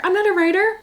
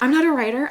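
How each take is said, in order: First: Even higher, louder mock squeal; mock self-doubt, louder. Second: High whiny mock protest; mock self-doubt. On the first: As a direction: push the whine into a squeal. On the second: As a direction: whine it like an insecure kid. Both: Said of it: "I'm like".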